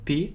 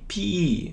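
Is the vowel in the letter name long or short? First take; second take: short; long. First: The vowel is said short. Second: The vowel is said long. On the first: The speaker calls it wrong. "многие почему-то говорят, что это P" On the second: The speaker calls it right. "Долгий звук I"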